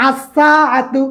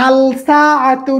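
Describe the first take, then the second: First: আসসাআতু with no লাম, স doubled; right pronunciation. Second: আলসাআতু said slowly with the লাম sounded; wrong pronunciation. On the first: (সঠিক উচ্চারণ, আসসাআতু লাম ছাড়া) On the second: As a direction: stretch আলসাআতু out, a clear l before সা. (ভুল উচ্চারণ, ধীরে আলসাআতু লাম সহ) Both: Shown as a demonstration. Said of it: "এখানে আলসাআতু নয়".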